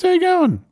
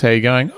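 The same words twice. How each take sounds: First: Very high, squeaky mock listener; imitated listener. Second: Slightly raised presenter greeting; host's greeting. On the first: Listener greeting the radio host back, squeaky mock voice. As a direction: put on a falsetto caricature of a listener. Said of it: "that's just what you all sound like". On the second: Acted. Radio host hailing the listeners, lightly acted greeting. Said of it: "we go".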